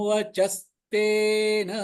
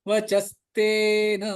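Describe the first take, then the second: The two takes are said the same way.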